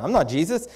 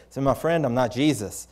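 First: Higher pitch with a questioning rise; taken-aback denial. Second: Level voice, falling at the end; gentle correction. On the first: Preacher correcting a man who mistakes him for Jesus, taken aback. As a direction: blurt a puzzled disclaimer. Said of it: "I just said it like that". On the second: Preacher setting a weeping man straight as a friend, gentle. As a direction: explain it kindly and evenly. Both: Retold or imitated.

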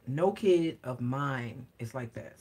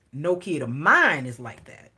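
First: "No" stressed, softer and slow; firm emphatic repeat. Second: Said in the usual way. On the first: Real, not acted. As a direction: lean on "No", quiet and slow, fully certain. Repeats the denial more firmly.

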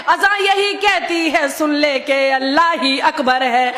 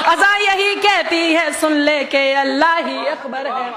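The two takes are said the same way.

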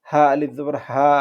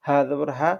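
First: Last হা held long; madd letter. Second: Said in the usual way. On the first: Shown as a demonstration. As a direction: stretch the final হা for one alif. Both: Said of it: "এগুলোই মূলত হচ্ছে মদের হরফ".

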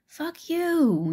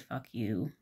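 First: High mock-angry snap, much higher; angry retort. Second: Said in the usual way. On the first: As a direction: fire it back at the bully. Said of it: "the other girl goes". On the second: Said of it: "I understand why she said".

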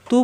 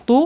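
First: "তু" with a thin, light t. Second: "তু" with a heavy, rounded t; thick tū. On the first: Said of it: "তু পাতলা". ("তু" পাতলা উচ্চারণে) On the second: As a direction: say "তু" thick and full. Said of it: "তু মোটা". ("তু" মোটা উচ্চারণে) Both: Shown as a demonstration.

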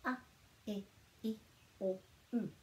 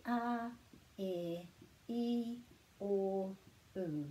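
First: A, e, i, o, u each cut short; short vowels. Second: A, e, i, o, u each held longer; long vowels. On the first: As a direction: keep a, e, i, o, u short, with gaps between. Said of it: "Those sounds are quite short". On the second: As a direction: stretch out a, e, i, o, u one by one. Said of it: "makes that sound a bit longer". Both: Shown as a demonstration.

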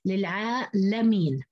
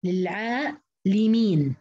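First: للعالمين as lil-'aa-lameen, open a; fatha on the lam. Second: للعالمين very slow, split as lil-'aa-limeen; kasra on the lam. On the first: Teacher showing other readers' form, lam with a. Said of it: "قرأوها بفتح اللام". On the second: Teacher demonstrating Hafs's reading slowly, lam with i. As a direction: stretch للعالمين, clear i after second lam. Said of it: "انفرد حفص بكسر اللام". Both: Shown as a demonstration.

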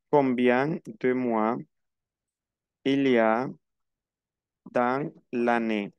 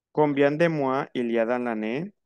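First: Slow, broken into chunks with long pauses; slow teaching repeat. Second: Said in the usual way. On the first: Shown as a demonstration. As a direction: spell out the question chunk by chunk. (pregunta lenta, por partes) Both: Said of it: "Atención a la cuestión".

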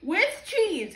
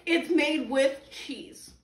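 First: "with cheese." read higher with a fall on "with"; first take. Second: "It's made with cheese." said slowly, leaning on "It's"; slow emphatic reread. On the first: Reading the box's wording "with cheese." aloud. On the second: Slowly rereading the box's claim "It's made with cheese.". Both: Shown as a demonstration.

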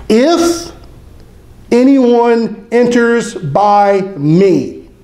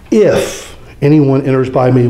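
First: If lifted high, anyone enters by me drawn out very slowly; stress on the condition. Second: Said in the usual way. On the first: Shown as a demonstration. Preacher stressing the single condition to the congregation, slow and deliberate. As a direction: hang on If, then stretch anyone enters by me slowly. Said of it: "That's the only condition". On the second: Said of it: "We've come across this word if".

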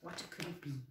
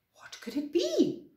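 First: Said in the usual way. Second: Higher-pitched wondering question; puzzled, surprised storybook voice. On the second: Acted. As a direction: ask in acted surprise, pitch swooping up. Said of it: "said Floppy in surprise".

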